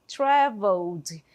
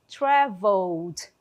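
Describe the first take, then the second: No difference in how they are said.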